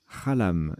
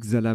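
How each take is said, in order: First: The word begins with a 'kh' sound. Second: The word begins with a 'ks' sound. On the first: The speaker calls it right. "en fait ça se prononce Khalam" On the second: The speaker calls it wrong. "j'ai dit Xalam"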